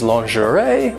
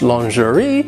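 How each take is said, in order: First: It is said with an American pronunciation. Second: It is said with a British pronunciation. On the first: "American English is lingerie" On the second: "British English lingerie"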